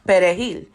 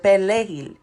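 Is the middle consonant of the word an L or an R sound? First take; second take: R; L. First: Said with a Dominican Spanish pronunciation, using an R. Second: Said with a Haitian Creole pronunciation, using an L. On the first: The speaker is Dominican. "a Dominican who speaks Spanish pronounces perejil" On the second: The speaker is Haitian. "A Haitian who speaks Creole will pronounce it pelejil"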